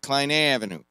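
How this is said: It is said with a nasal east-side twang.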